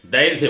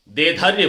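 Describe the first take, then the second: First: दैर्ध्य, with the रे before the धै; correct pronunciation. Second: देधर्य, with the धै before the रे; wrong pronunciation. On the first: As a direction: say दैर्ध्य the right way. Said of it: "दैर्ध्य बोलना है". (दैर्ध्य का शुद्ध उच्चारण) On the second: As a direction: mimic the students' wrong देधर्य. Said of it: "गलत हो गया". (देधर्य का गलत उच्चारण) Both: Shown as a demonstration.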